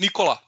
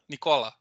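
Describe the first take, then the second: First: The stress is on the first syllable. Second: The stress is on a later syllable. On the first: This is how the speaker says the name. "I would say first one" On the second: This is how Italians say the name. "I think Italians has on last one"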